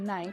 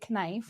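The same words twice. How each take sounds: First: The K at the start is silent. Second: The K at the start is pronounced. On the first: The speaker calls it right. "where the K would be silent" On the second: The speaker calls it wrong. "We don't say knife"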